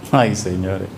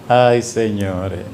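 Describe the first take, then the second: First: Lower, softer sighing repeat. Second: Slow, low wistful sigh; tender sigh. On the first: Preacher repeating his sigh, softer and low. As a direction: let it fade into a sigh. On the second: Preacher savoring sweet mornings, low tender sigh. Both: Real, not acted.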